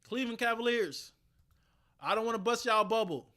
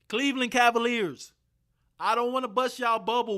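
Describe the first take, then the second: First: It is said at normal volume. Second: It is said loudly.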